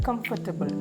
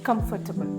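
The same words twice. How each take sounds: Both takes have the same delivery.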